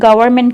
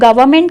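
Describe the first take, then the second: First: The word is said in an American accent. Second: The word is said in a British accent. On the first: "American accent में इसको गवर्नमेंट कहते हैं" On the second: "British में like इसको गवर्नमेंट कहते हैं"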